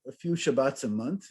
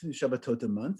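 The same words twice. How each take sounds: First: "Shabbats" said with an English plural -s ending. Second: "Shabbatot" in the Hebrew plural, sha-ba-TOT, softer. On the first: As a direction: say "Shabbats" the English way, then correct yourself. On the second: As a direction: correct yourself to "Shabbatot", ending in -ot. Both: Shown as a demonstration.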